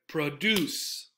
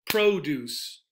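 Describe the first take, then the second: First: The stress is on the second syllable. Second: The stress is on the first syllable. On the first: It is the verb. "The stress, however" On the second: It is the noun. "On the first syllable"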